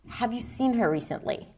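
The voice falls at the end. The speaker is serious and wants a deeper conversation. "I move it into a rising falling intonation"

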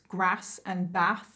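The words are said in a northern English accent. "she would pronounce grass and bath"

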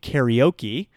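The word is said with American English pronunciation. "in English we say karaoke"

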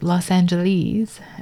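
The name is pronounced the British way. This is how people in the UK say it. The speaker calls it wrong. "in the UK, people also tend to say Los Angeles"

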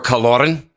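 The name is said in a Scottish accent. "if you're Scottish"

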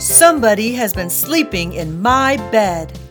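A big, deep, booming voice says it. The largest character is speaking. "In his great big voice, he boomed"

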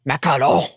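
It is said with an exaggerated French accent.

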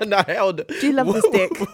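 It is said in a mild, polite tone. The speaker calls it wrong. "You're not like, ... That's so polite"

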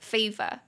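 It is said with a British-leaning accent. "我现在在念的时候好像都是比较偏英式"

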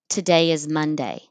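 It is run together as one word.

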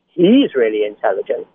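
It is said in an exaggerated, weird voice.

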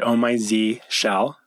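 The letter Z is said the American way. "I pronounce it"

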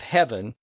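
The vowel is a short, simple vowel.

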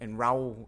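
The word begins with an r sound. "in the south with a more of an R or a Y sound"

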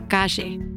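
The middle consonant is a sh-like sound. "pronounced with a J sound"

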